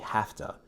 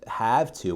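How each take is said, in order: First: The words are said quickly and run together. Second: Both words are said fully and clearly. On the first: "I'll say have to" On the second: "Instead of have to"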